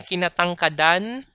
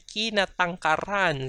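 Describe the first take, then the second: First: The last syllable begins with a D sound. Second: The last syllable begins with a trilled R. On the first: The speaker calls it wrong. "We don't say kinatangkadan" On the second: The speaker calls it right. "We say kinatangkaran"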